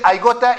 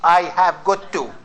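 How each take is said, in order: First: It is reduced to the short form 'gotta'. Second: It is said in full as 'have got to'. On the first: "most Americans say I gotta" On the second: "it means I have got to"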